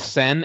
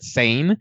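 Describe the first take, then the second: First: The vowel sounds like the one in 'set'. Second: The vowel sounds like the one in 'say'. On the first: The speaker calls it right. "it's Sen as in Senate" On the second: The speaker calls it wrong. "I would always pronounce it Sane"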